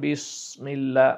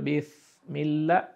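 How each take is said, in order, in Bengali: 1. "s" ভারী করে বলা হয়, জিভ উপরে তুলে। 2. "s" এর জায়গায় অন্য একটি ব্যঞ্জন বলা হয়। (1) "সদ দিয়ে করেন বিসমিল্লাহ, ভারী হয়ে গেল" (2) "যদি ফা উচ্চারণ করেন তাহলে হয়ে যাবে বিসমিল্লাহ, ভুল হয়ে গেল"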